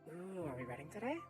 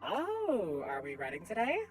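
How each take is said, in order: First: It is said in a quiet voice. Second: It is said at normal, louder volume.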